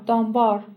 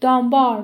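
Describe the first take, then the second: First: Said in the usual way. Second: Name called out across the crowd; loud calling out a missing neighbour. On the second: Acted. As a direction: shout the name so it carries. چند نفر گفتن.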